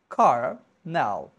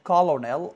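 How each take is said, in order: First: No L sound is heard in the middle. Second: An L sound is heard in the middle. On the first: The speaker calls it right. "The correct pronunciation will be kernel. L will be silent" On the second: The speaker calls it wrong. "We used to mispronounce it like colonel"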